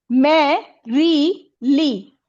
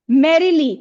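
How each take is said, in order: First: merrily slowly split into three syllables, first one stressed. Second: Said in the usual way. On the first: Shown as a demonstration. Teacher counts syllables for pupils, merrily slow and separated. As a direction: break merrily into मै, री, ली with pauses. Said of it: "इसमें तीन syllable है". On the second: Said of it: "इसमें stress पहले आएगा".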